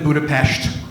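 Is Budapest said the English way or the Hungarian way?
Hungarian. The city name is said the Hungarian way. The speaker calls it right. "you have to say it like that"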